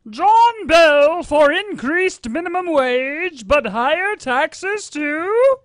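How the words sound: It is read in an exaggerated theatrical acting voice.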